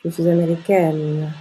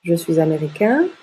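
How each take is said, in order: First: Américaine with open è and held n; open mouth ending. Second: Américain rising on a nasal vowel; nasal ending. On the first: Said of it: "et on ouvre la bouche". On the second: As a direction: keep the N silent in américain. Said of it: "on ne prononce pas le N". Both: Shown as a demonstration.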